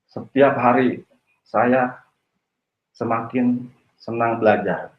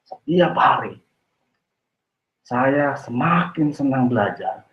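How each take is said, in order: First: It is said in a flat, unemotional tone. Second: It is said with lively enthusiasm.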